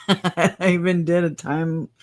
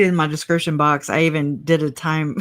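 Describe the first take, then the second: First: Laughing at herself. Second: Said in the usual way. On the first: Real, not acted. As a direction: giggle through the words. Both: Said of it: "I can't even read".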